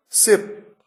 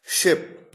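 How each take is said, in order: First: शिप said as "sip", with a hissed s at the start; plain S sound. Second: शिप said as "ship", opening on sh; SH sound. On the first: Teacher contrasting two words for learners, शिप with plain s. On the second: Teacher contrasting two words for learners, शिप with sh. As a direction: start शिप with a full sh, not s. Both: Shown as a demonstration. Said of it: "देखिए कितना फर्क है".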